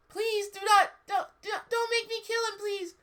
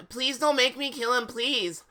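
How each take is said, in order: First: Very high squeaky begging; wrong Ebony voice. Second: Higher-pitched, mock-desperate plea; begging. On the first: Acted. Ebony begging not to kill, misjudged high squeak. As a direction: plead in a silly falsetto. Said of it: "That's not Ebony's voice". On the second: Ebony begging not to kill, high pleading. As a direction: beg in a raised but natural voice. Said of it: "I begged".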